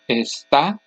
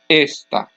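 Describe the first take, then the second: First: The stress is on the last syllable. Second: The stress is on the first syllable. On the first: "the last syllable is the loudest" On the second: "the next to last syllable is the loudest syllable"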